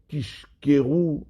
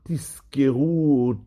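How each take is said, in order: First: The middle consonant is an sh. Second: The middle consonant is a clear z. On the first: You will tell lies. The speaker calls it wrong. "afin qu'on n'entende pas ... du mot sheker" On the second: You will remember. The speaker calls it right. "Il faut bien marquer le Zayin de Tizkeru"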